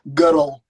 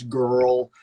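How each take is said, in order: First: The word is said further forward in the mouth. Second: The word is said deep back in the throat. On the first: "yours is beautiful" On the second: "mine is deep in my mouth"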